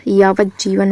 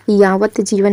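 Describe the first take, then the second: First: यावत जीवन joined as yaavajjeevan; यावत जीवन fused with a held "jj"; correct form. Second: यावत जीवन as two words, yaavat jeevan; यावत जीवन with a separate "vat"; wrong form. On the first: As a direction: turn the T of यावत into a double J, running into जीवन. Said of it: "होता है". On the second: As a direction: sound the T before जीवन in यावत जीवन. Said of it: "नहीं होता". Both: Shown as a demonstration.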